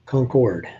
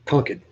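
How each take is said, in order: First: Concord with a full second syllable, CON-cord; spelled-out pronunciation. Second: Concord as CON-kud, weak r-less ending; local pronunciation. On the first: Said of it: "But we pronounce it Concord". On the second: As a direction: clip the end of Concord to kud. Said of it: "we pronounce it". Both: Shown as a demonstration.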